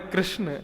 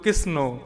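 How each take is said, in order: First: The name ends without an added vowel. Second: The name ends with an added 'o' vowel. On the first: This is the name as it really is. The speaker calls it right. "जब नाम है कृष्ण" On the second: Village folk cannot say the name properly. The speaker calls it wrong. "तो वो बोलती कृष्णो"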